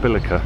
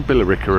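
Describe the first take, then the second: First: It is said the changed local American way. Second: It is said the usual English way. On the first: This is how the locals here say the name. "They've changed the sort of uh, pronunciation" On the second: This is how the name is said in Essex. "They don't say Billericay apparently"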